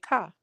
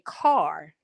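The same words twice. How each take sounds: First: The final r sound is dropped, like 'ka'. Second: The final r sound is clearly pronounced. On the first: "you definitely say "ka."" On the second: "I don't say car"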